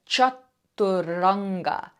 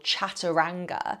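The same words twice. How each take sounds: First: The middle vowel sounds like 'oo'. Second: The middle vowel sounds like 'ah'. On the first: The speaker calls it right. "very often it's actually pronounced as if it's a U, so more that oo sound" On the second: The speaker calls it wrong. "instead of chaturanga"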